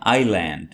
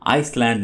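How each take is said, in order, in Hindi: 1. 'l' से पहले कोई 's' ध्वनि नहीं बोली जाती। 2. 's' ध्वनि 'l' से पहले बोली जाती है। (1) "इसको पढ़िएगा आइलैंड" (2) "आइसलैंड नहीं है"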